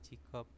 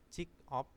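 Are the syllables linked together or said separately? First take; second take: linked; separate. First: The final consonant links into the next syllable. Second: The two syllables are said separately. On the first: "dibacanya menjadi jikop" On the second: "dari jik jik op"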